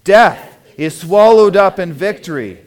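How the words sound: It is said with lively excitement.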